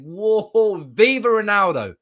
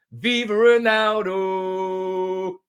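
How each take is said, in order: First: Louder and higher cheer. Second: Slow drawn-out chant. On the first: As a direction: shout it like a terrace cheer. Fan chant celebration. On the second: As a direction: stretch it out slowly like a chant. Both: Real, not acted.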